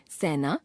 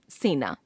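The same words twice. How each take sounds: First: सेना as सैना, open vowel, rising; wrong pronunciation. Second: Said in the usual way. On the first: Shown as a demonstration. Teacher showing a common error, सेना as सैना. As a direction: widen से to सै in सेना. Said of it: "अशुद्ध". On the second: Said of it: "शुद्ध".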